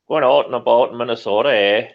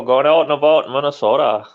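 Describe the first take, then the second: First: Put-on fast, loud Minnesota accent with rounded out and about; mock Minnesota accent. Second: Put-on loud Minnesota accent, out and about; a hammed-up Minnesotan; mock Minnesota accent. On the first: Joking that Minnesotans sound Canadian, mock Minnesota accent. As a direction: ham up the Minnesota vowels. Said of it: "Canada light". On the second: Repeating the Minnesota joke, loud mock accent. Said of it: "It's true though".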